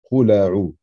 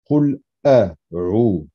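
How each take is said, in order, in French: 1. Les mots s'enchaînent sans coupure glottale. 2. On entend une coupure glottale avant la voyelle. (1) "de ne pas prononcer la lettre Hamza avec sa fatha ... pas correct" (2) "ce son-là doit absolument être prononcé"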